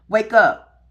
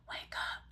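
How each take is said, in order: First: It is said loudly and forcefully. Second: It is said quietly and softly. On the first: The inner message grew more insistent. "Now I'm going to say it louder because it got louder" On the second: The inner message started as a gentle nudge. "quiet whispers"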